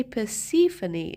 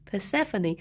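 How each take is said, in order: First: Persephone said per-SIF-oh-nee, with an EE sound; Persephone as per-SIF-oh-nee, second syllable SIF; old mispronunciation. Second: Persephone said per-SEF-oh-nee, stress on SEF; Persephone with a short E, per-SEF-uh-nee; correct pronunciation. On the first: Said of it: "I used to say". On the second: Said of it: "instead of". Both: Shown as a demonstration.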